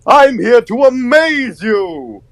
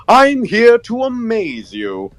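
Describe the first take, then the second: First: High, slow, far-from-natural cartoon showman; big high-pitched showy announcement; character audition voice. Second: Really energetic high cartoon voice; high, drawn-out showman with extra energy; energetic character voice, stretched out high; Buzu. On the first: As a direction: draw it out high like a cartoon entertainer. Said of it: "I just did a really energetic Buzu". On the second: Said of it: "just bring back the energy a bit".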